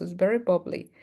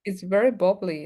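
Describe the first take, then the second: First: "very" diberi tekanan jelas; stress on very. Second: "very" ditekankan, turun di akhir; stress on very. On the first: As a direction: ulangi dengan tekanan pada very. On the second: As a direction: tekan kata very dengan jelas. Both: Shown as a demonstration.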